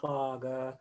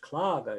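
First: The second syllable is as heavy as the first. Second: The second syllable is lighter than the first. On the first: The speaker calls it wrong. "it's not clogger" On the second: The speaker calls it right. "It's clogger"

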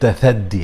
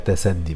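First: The word is said in Standard Arabic form. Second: The word is said in Egyptian colloquial form. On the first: This is how it is supposed to be pronounced. "النطق بتاعها المفروض تثدي" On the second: This is how Egyptians say it. "بس بالمصري بقى تسدي"

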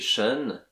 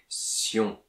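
First: The ending sounds like 'shun'. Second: The ending sounds like 'see-on'. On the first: This is the English way. "en anglais shun" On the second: This is the French way. "mais en français sion"

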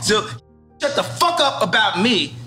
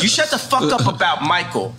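First: It is said in an angry tone. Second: It is said in a calm tone.

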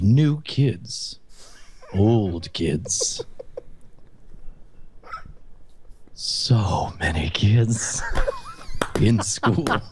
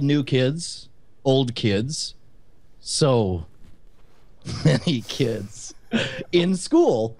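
First: It is read slowly in a lower voice. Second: It is read at normal pace and pitch.

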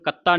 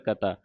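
First: The middle consonant is doubled and forceful. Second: The middle consonant is light and soft. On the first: The speaker calls it wrong. "ਇਹਨੂੰ ਕਤਾ ਨਹੀਂ ਕਹਿ ਦੇਣਾ" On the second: The speaker calls it right. "ਕਤਾ ਪਾਠ ਪੋਲਾ ਹੈ"

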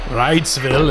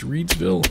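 First: The name is said in a German way. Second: The name is said in an English way.

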